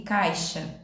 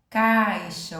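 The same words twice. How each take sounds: First: Said in the usual way. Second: "Caixa" with a loud, drawn-out A; A mais forte. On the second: Shown as a demonstration. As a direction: punch and stretch the A in "Caixa". ("Caixa" com o "a" forte e alongado) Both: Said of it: "o som da letra A saiu mais forte".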